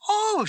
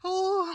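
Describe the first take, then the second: First: It sounds delighted. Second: It sounds terrified.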